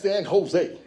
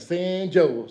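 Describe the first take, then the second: First: Jose begins with an H sound. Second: Jose begins with a J sound, like Joe's. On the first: The speaker calls it right. "that's San Jose" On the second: The speaker calls it wrong. "I'm going to San Joe's"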